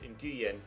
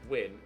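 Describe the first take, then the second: First: It is said as spelled, like noo-yen. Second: It is said as one syllable, like win. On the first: "or as it as you would read it" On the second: "is pronounced Win"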